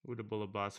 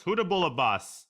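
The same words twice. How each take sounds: First: Put-on Southern accent. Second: Belted Southern twang, much higher and louder; loud Southern accent. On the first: Streamer taunting his chess opponent, soft mock Southern accent. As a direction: try out a Southern twang quietly to yourself. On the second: Pretend. Streamer gloating at his chess opponent, loud hammed-up Southern accent. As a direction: bellow the taunt like a cocky Southern boss. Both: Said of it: "Can you use a Southern accent".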